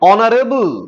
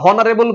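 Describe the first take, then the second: First: The word starts with a vowel, no h. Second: The word starts with an audible h sound. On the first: The speaker calls it right. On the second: The speaker calls it wrong.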